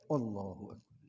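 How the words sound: It is said with a stylish, showy flourish. This is the stylish way people like to say it. "Yang bergaya kan"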